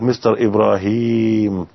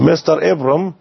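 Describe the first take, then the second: First: The name is said in full, three syllables. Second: The name is shortened, middle syllable dropped. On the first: The word is still young and intact. "إبراهيم الآن الكلمة في يعني شاب" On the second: The word has aged and is wearing down. "الآن الكلمة أصبحت في الستين"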